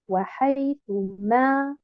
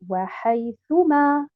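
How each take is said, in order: First: The stress falls on the final syllable ma. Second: The stress falls on the syllable thu. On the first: The speaker calls it wrong. "Je ne mets pas un nabr sur harakat al-ma" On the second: The speaker calls it right. "Je mets un nabr sur harakat al-ta"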